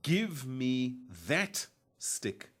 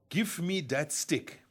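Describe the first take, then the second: First: The word that begins with a th sound. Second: The word that begins with a d sound. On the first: The speaker calls it right. "It should, of course, be" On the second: The speaker calls it wrong. "Another example that we come across frequently"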